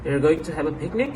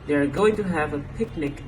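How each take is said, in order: First: The voice rises at the end. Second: The voice falls at the end. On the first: It is an informal statement. "In informal speech, however, we may hear" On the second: It is a plain statement. "is usually said at a statement like"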